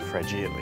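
The word is pronounced the Italian way.

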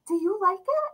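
It is asked in a soft, warm, gentle tone. The speaker calls it right. "But like, honey"

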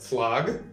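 The word is said with a Russian-accented vowel. "Русская – флаг, что неправильно"

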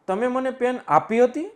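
The stress falls on આપી હતી. It questions whether it was given at all. "આપી હતી એની ઉપર ભાર આપી દઉં"

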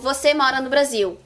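The voice falls at the end like a statement. It states that the listener lives in Brazil.

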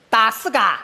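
The name is pronounced in Shanghainese dialect. "下回进站用上海话报啊"

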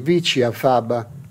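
It is pronounced with an Italian accent. "in Italian"

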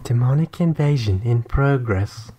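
It is said in a put-on female voice. The speaker calls it right. "You're supposed to say it like a lady"

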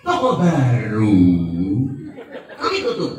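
The pause comes right after the second word. The new shop is the one we closed.

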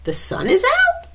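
It is said as a question, rising.

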